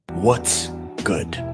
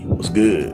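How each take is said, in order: First: It is said in a standard accent. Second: It is said in a hood accent.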